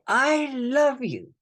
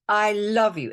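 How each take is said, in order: First: Slow, drawn-out I love you, higher; tender slow affirmation; slow heartfelt mantra. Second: Said in the usual way. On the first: Shown as a demonstration. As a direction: linger on love like a prayer. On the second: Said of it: "That's the first statement".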